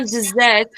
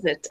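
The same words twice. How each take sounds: First: "dessert" stressed on the second syllable, di-ZERT. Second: "desert" stressed on the first syllable, DEZ-ert. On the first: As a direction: say "dessert" slowly with a weak di and long ZERT. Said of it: "But the next one". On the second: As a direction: say "desert" with a strong DEZ and short, weak ending. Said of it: "So this". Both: Shown as a demonstration.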